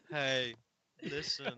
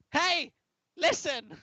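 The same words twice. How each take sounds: First: Low-key fairy in his own low register; deadpan fairy. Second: Very high, loud fairy squeal; badly faked fairy, pitched way up. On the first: Acted. Host correcting co-host on how he'd play the fairy, deadpan. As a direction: undersell the fairy's call, no squeal. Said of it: "it'd be more like". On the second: Host attempting the game fairy's call, high fairy voice. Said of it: "I can't do a fairy voice".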